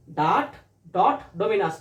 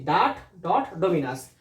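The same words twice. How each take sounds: First: ডাট, ডট, ডোমিনাস said very slowly, word by word; slow repeat-after-me. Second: Said in the usual way. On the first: Shown as a demonstration. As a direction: spell it out slowly for students to echo. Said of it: "আমার সাথে সাথে বলো". (ধীরে ধীরে উচ্চারণ করে শেখানো) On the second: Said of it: "Bangla লিখেছি".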